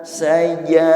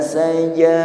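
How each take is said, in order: The two takes are said the same way.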